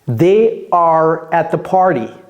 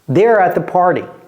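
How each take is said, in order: First: The two words are said in full. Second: The two words are contracted into one.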